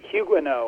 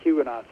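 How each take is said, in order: First: The name is pronounced in a French way. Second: The name is pronounced in an English way.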